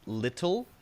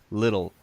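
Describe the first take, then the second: First: The middle consonant is a crisp, hard t. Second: The middle consonant is a soft, light d. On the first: The speaker calls it wrong. "which is the technically correct pronunciation, but unfortunately, nobody says it like that" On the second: The speaker calls it right. "but it's a light, little, little, natural sounding D"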